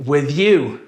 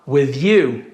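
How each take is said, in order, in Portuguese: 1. As duas palavras são ligadas juntas. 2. As duas palavras são ligadas juntas.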